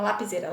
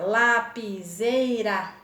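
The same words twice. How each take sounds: First: Said in the usual way. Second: LA - PI - SEI - RA, slowly stretched; teacher sounding out LA-PI-SEI-RA; split into syllables. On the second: Shown as a demonstration. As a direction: say lapiseira in four slow beats, LA, PI, SEI, RA. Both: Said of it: "Quatro sílabas".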